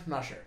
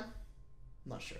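First: Said in the usual way. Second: Slow, whispered musing; soft, breath-only drawl; hushed uncertainty. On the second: Pretend. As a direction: draw it out in a whisper. Hushed, drawn-out answer to self.

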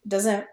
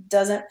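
Both takes have the same delivery.

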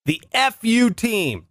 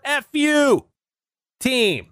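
First: "F U" spelled out slow and deliberate, letter by letter; spelled out slowly. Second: "F U" popped out high and bright as a punchline; spring "F U" high, like the gag's reveal; punchline pitch. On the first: Naming his follow-up team, drawn-out letters. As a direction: drag out "F U" so the double meaning lands. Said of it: "I'm suggesting we call it". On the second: Pitching the short name, high and cheeky. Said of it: "For short". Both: Shown as a demonstration.

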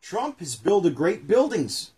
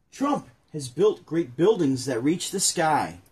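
First: Read aloud slowly. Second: Slow careful read-aloud; read aloud slowly. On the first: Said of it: "reading the book aloud". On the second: Rereading the children's book line to his partner, slow and careful. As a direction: take it slow and deliberate, like reading to kids. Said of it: "I already messed it up. Let me start over". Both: Acted.

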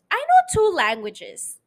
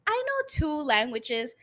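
First: Louder, higher "know" punched hard; emphatic. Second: Said in the usual way. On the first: Real, not acted. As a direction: hit "know" with pride, loud and high. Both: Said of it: "repeated with emphasis".

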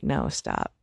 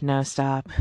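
First: Deep, low firm command; the version with force; forceful no stop. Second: Said in the usual way. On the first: Pretend. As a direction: stop her hard with a much lower voice. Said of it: "grabbed the knife from her and been like". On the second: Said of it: "verbally, I just said".

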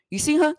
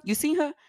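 First: Impatient demand. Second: Said in the usual way. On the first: Retold or imitated. Calling mutuals hunting for her.

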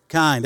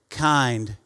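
First: Kind said louder on a falling note; louder call-and-response. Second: Said in the usual way. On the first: Shown as a demonstration. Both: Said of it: "There we go".

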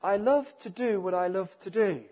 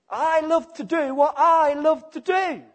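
First: Said in the usual way. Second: Higher and much louder, boldly self-centred; self-willed sinner. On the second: Acted. Preacher voicing the sinner who loves his own way, loud and defiant.

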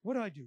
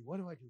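First: Said in the usual way. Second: The same question dropped softer and lower; softer worried repeat. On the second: Retold or imitated. Preacher voicing his own indecision, softly repeated. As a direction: ask it again under your breath, more lost.

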